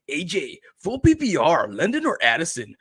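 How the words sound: It is read in an imitated viewer's voice.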